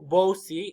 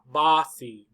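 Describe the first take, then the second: First: The first vowel sounds like long 'oh'. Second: The first vowel sounds like open 'ah'. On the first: The speaker calls it wrong. "It's not O, bossy. No" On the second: The speaker calls it right. "Big. Ah"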